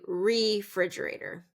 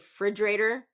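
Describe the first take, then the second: First: The first syllable is kept. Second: The first syllable is dropped. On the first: The speaker calls it right. "So still get that re in there" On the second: The speaker calls it wrong. "drop the, the first syllable of the word"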